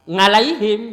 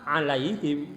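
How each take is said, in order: First: The word starts with a nasal ng sound. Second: The word starts without any ng sound. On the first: The speaker calls it wrong. "kalau ain itu ngeng" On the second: The speaker calls it right. "Tapi kalau minta maaf alaihim"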